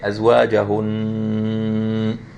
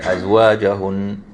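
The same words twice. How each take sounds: First: The final nasal sound is held long. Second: The final nasal sound is short. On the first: The speaker calls it right. "here we were supposed to say, even if we stop" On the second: The speaker calls it wrong. "they will not make it long at all"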